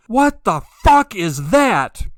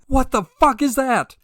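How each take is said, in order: First: High, loud, slow What the fuck; startled scream. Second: Alarmed exclamation. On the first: Man sees a light in the sky, screaming in alarm. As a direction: shout it out like you've just seen something impossible. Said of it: "just screamed at him". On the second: Repeats the imagined reaction. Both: Retold or imitated.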